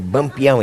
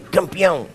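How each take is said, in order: First: The word begins with a B sound. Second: The word begins with a K sound. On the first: The speaker calls it wrong. "não é bampeão" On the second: The speaker calls it right. "é campeão"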